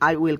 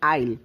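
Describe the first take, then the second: First: Both words are said in full. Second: The words are contracted into one syllable. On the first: The speaker calls it wrong. "আই উইল কে বলবেন আইল" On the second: The speaker calls it right. "বলবেন আইল"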